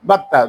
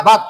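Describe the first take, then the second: First: বাত্তা with ত held double; tashdid, doubled consonant. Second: বাত ending on one closed ত; sakin, single consonant. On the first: Teacher showing that a tashdid letter sounds twice, doubled consonant. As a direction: sound the ত twice in বাত্তা, closing then reopening into a vowel. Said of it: "দুইবার উচ্চারণ হবে". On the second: Teacher showing that a sakin letter sounds once, single closed consonant. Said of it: "সাকিন আলা অক্ষর একবার উচ্চারণ হবে". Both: Shown as a demonstration.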